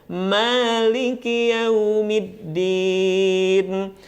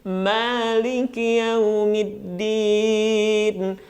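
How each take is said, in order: Both takes have the same delivery.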